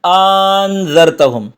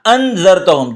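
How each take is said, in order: First: "انذرتہم" with one long drawn-out aa at the start; "انذرتہم" with the second hamza melted into a long vowel; second hamza as alif. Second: "انذرتہم" with two separate short hamzas; "انذرتہم" opening on two crisp glottal stops; both hamzas pronounced. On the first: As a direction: stretch the opening of "انذرتہم" slowly into aan. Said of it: "دوسرے حمزہ کو الف بنا دے". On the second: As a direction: sound each hamza of "انذرتہم" distinctly, a-an. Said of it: "دونوں حمزہ کو پڑھیں آپ". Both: Shown as a demonstration.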